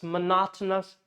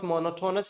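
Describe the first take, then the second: First: "monotonous" stressed mo-NOT-onous; correct stress. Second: "monotonous" as mono-TO-nous, full o sounds; wrong pronunciation. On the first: Teacher correcting learners, "monotonous" stressed mo-NOT-onous. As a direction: punch NOT inside "monotonous". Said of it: "it's monotonous". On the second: Teacher showing the mistake, "monotonous" as mono-TO-nous. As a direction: say "monotonous" like mono plus tonous. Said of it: "It's not monotonous". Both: Shown as a demonstration.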